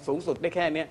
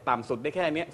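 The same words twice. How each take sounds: First: High range demo. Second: Low range demo. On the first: Judge demonstrating a normal singer's highest range, sung high. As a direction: lift up to the top of the range on สุดได้แค่เนี้ย. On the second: Judge demonstrating a normal singer's lowest range, sung low. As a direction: dip into the bottom of the range on ต่ำสุดได้แค่เนี้ย. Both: Shown as a demonstration.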